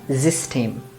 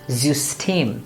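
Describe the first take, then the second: First: The first vowel is an unrounded ee sound. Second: The first vowel is a rounded ü sound. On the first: The speaker calls it wrong. "and not zistame" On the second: The speaker calls it right. "would be zustame"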